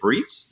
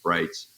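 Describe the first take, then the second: First: The vowel is a long 'ee' sound. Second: The vowel is an 'eye' sound. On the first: The speaker calls it wrong. "some people say Breets" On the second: The speaker calls it right. "I say pronounced Brights"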